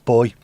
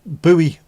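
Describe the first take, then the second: First: It is said as one syllable, boy. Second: It is said as two syllables, boo-ee. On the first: The speaker calls it right. "saying it correctly. It's boy" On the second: The speaker calls it wrong. "Vic speaks American to Americans"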